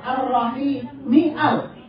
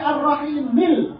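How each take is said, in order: First: A glottal stop separates the words before 'al'. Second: The words run together with no glottal stop. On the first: The hamzah is a cutting hamzah, always read. "tapi tetap ar-rahimial" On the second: The hamzah is a connecting hamzah, silent mid-phrase. "Kenapa di sini ar-rahimil"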